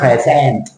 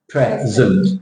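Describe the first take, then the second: First: The second syllable has a full, long vowel. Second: The second syllable has a short, reduced vowel. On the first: The speaker calls it wrong. "It's not present" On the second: The speaker calls it right. "the second syllable has a short sound"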